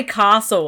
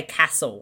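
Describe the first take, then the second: First: "castle" as "cah-sul"; broad ah in "castle"; long-A castle. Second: "castle" with the vowel of "cat"; short-A castle. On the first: Stating my own way, "castle" as "cah-sul". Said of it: "I say castle". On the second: Mimicking other people, "castle" with short A. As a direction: say "castle" as "cass-ul". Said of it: "then people say castle". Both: Shown as a demonstration.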